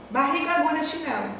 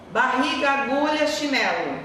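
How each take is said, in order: First: Mock nonsense list. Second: Said in the usual way. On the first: Shown as a demonstration. Teacher shows pupils a meaningless string of words, puzzling mock delivery. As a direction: say the random words as if talking nonsense on purpose. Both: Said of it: "O que que você tá entendendo?".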